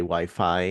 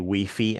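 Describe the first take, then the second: First: It is said the speaker's way, English-like. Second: It is said the Spanish-from-Spain way, as spelled.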